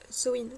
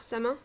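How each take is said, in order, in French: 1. Prononcé avec la prononciation gaélique irlandaise. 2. Prononcé Samin, une prononciation simplifiée. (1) "je prononce Samhain" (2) "voire Samin"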